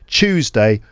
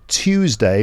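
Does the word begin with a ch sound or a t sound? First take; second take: ch sound; t sound. First: It begins with a ch sound. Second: It begins with a clear t sound. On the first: "T sounds at the start might sound like ch" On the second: "instead of tu- Tuesday"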